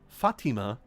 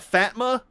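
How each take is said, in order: First: The name is said with three syllables. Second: The name is said with two syllables. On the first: The speaker calls it right. "I believe it's Fatima" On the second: The speaker calls it wrong. "probably some subs have pronounced it instead of"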